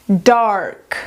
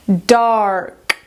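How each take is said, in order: Both takes have the same delivery.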